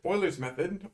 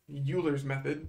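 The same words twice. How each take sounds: First: The name is given its refined pronunciation. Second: The name is given its unrefined pronunciation. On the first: The speaker calls it right. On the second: The speaker calls it wrong.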